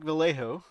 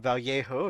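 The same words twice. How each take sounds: First: It is said with a plain English pronunciation. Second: It is said with a traditional Spanish pronunciation.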